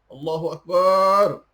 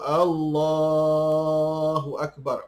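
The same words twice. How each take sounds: First: The syllable bar is drawn out long. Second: The syllable la is drawn out long. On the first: The speaker calls it wrong. "Dipanjangkan bar" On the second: The speaker calls it right. "la ni yang dipanjangkan"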